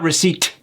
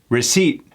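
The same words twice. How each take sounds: First: The final t sound is clearly pronounced. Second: The final t sound is dropped. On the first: The speaker calls it wrong. "Not receipt. It just sounds like we're trying too hard" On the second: The speaker calls it right. "what did I say about that T? Gone"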